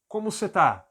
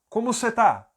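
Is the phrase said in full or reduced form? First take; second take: reduced; reduced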